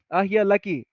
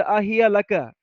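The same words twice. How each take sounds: First: আহিয়া লাকি with the feminine ending -কি, লাকি said as laki; corrected ending. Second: আহিয়া লাকা with the masculine ending -কা, লাকা said as laka; wrong ending shown. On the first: Teacher correcting students to the feminine লাকি, said laki. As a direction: give the right form, লাকি ending in ki. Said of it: "লাকি হবে". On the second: Teacher to students showing the wrong form, লাকা said laka. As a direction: demonstrate the mistaken লাকা, ending in ka. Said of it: "ইয়া, লাকা না". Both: Shown as a demonstration.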